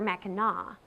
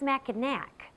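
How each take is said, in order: First: The name ends with an open aw sound. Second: The name ends with a hard k sound. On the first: The speaker calls it right. "but rather Mackinac, a pronunciation that harkens back to the early days of this area when the French ruled" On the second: The speaker calls it wrong. "it's not pronounced Mackinac"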